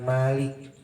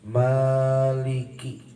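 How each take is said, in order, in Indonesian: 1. Kata itu berakhir dengan konsonan k. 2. Kata itu berakhir dengan vokal.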